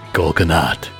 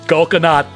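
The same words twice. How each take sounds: First: The word is said softly. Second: The word is said loudly.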